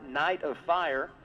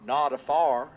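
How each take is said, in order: First: It is said in a standard accent. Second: It is said in a Texas accent.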